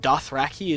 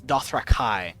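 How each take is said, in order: First: The last syllable sounds like 'key'. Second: The last syllable sounds like 'kye'. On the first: The speaker calls it wrong. "Dothraki is the ter- wrong pronunciation" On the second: The speaker calls it right. "It's Dothrakai"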